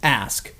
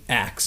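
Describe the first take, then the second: First: The S sound comes before the K sound. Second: The K sound comes before the S sound. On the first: "It should be pronounced ask" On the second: "culturally, axe is the more common in certain communities"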